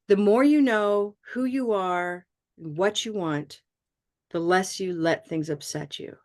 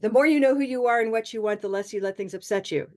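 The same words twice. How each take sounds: First: It is broken into several short phrases with pauses. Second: It is run together as one phrase without pauses. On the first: The speaker calls it right. "Yes, you could" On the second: The speaker calls it wrong. "If you say this with all one group"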